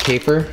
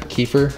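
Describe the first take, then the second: First: "Kefir" tried with a long first vowel; alternate pronunciation. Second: "kefir" said KEE-fer; alternate pronunciation. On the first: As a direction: try out one way of saying "Kefir". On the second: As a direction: try "kefir" with an ee in the first syllable. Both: Shown as a demonstration. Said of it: "I'm gonna say kefir from now on".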